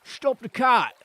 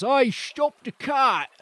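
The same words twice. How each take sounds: First: Loud Cockney shout; Cockney accent. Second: Slow, loud Cockney bandit calling out "Oi, stop the cart!"; a rough Cockney hail to halt the cart; Cockney accent. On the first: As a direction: bark the order in Cockney. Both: Acted. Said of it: "we're going for that accent this time".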